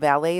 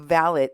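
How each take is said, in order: First: Valet is said the everyday American way. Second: Valet is said the British Downton Abbey way. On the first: It means the person who parks your car. "The valet is the guy that brings you your car" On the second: It means a personal servant. "That is the correct Downton Abbey pronunciation of valet"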